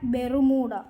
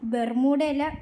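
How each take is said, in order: First: The name is said in a neutral way. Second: The name is said in a mocking way. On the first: It simply names the place. The speaker calls it right. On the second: It makes fun of the place. The speaker calls it wrong.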